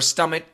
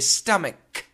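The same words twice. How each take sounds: First: The word does not end in a K sound. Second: The word ends in a K sound. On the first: The speaker calls it wrong. "we do not say stomach" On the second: The speaker calls it right. "with a K sound at the end"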